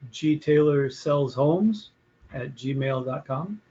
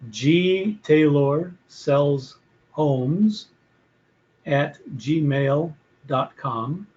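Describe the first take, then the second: First: The address is said at a normal, quick pace. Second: The address is said slowly and deliberately. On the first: The speaker calls it wrong. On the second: The speaker calls it right.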